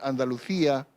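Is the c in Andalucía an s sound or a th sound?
th sound. The c is pronounced as a th sound. This is the form used instead in Spain. "en vez de decir"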